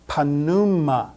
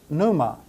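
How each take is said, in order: First: The initial P is pronounced. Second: The initial P is silent. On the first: This is the Greek way of saying it. "All letters are pronounced in Greek, so this is pronounced panuma" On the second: This is the English way of saying it. "In English, we would pronounce this pneuma with a silent P"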